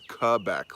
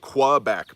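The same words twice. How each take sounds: First: It begins with a plain k sound. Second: It begins with a kw sound. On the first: The speaker calls it right. "but it's Quebec, like a K with a K" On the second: The speaker calls it wrong. "most people say Quebec"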